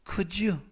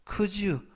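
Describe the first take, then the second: No difference in how they are said.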